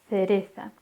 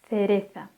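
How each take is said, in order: First: The first sound is a lisped th. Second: The first sound is a lisped th.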